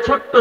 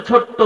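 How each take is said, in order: Both takes have the same delivery.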